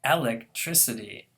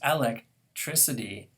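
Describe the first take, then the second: First: The first syllable carries the stress. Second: The first syllable carries the stress.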